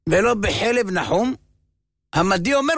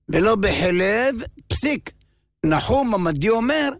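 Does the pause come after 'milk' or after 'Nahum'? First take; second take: after Nahum; after milk. First: The pause falls after Nahum, not after milk. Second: The pause falls after milk, before Nahum. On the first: Oil from Nahum's milk may not be used. The speaker calls it wrong. "אתה לא יודע איפה להשים את הפסיק" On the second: Milk is not used; Nahum the Mede gives another opinion. The speaker calls it right. "ולא בחלב, פסיק"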